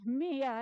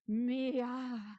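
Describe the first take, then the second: First: The name is said plainly, without a sigh. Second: It sounds like 'me' followed by a sigh. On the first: "Mia as an acronym for my inner artist" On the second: "An alternate pronunciation, Mia. Me, followed by a long sigh"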